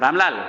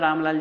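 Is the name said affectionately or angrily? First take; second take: angrily; affectionately. First: The name is said sharply and angrily. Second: The name is said softly and affectionately. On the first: The speaker is annoyed with the person. "आंख फड़ी और बोला" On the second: The speaker feels fondness toward the person. "मैंने प्यार से बोला"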